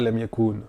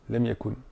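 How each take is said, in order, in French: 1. La voyelle u est tenue longue. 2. La voyelle u est gardée brève. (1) "C'est pas lem yakun" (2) "si on a une voyelle longue après... on l'enlève"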